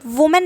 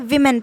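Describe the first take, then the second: First: The first vowel sounds like 'woo'. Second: The first vowel sounds like 'wih'. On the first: The speaker calls it wrong. "वुमेन नहीं पढ़ेंगे" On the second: The speaker calls it right. "विमेन पढ़ेंगे"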